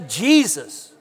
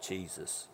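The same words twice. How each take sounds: First: The name is said with strong excitement. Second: The name is said flatly, without enthusiasm.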